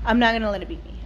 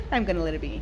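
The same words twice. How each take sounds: First: Correcting herself, lean hard on not; stress on NOT. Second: Said in the usual way. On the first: Real, not acted. Fixing her slip to herself, she stresses not firmly.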